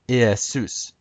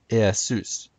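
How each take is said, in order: The two takes are said the same way.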